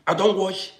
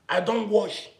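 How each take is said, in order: Both takes have the same delivery.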